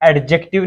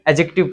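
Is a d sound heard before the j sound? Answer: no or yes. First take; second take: yes; no. First: A d sound is heard before the j. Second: No d sound is heard before the j. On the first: The speaker calls it wrong. "इसको एडजेक्टिव नहीं पढ़ते" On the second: The speaker calls it right. "इसका डी silent रहता है"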